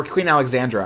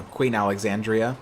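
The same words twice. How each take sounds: First: "Alexandra" with a plain -dra ending; corrected name Alexandra. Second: "Alexandria" ending in dree-uh; mistaken name Alexandria. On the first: Host corrects his own slip, "Alexandra" ending in druh. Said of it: "I'm sorry". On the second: Host names his pick for a new liner, "Alexandria" ending dree-uh. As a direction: say "Alexandria" with an extra ee before the final a. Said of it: "Or Queen Alexandra, I'm sorry". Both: Real, not acted.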